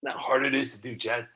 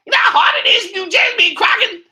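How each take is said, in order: First: Said in the usual way. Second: Very high, loud, fast squawk; put-on shouting voice. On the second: Shown as a demonstration. Creator showing how he has to talk, high shouted voice. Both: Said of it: "I gotta talk like that".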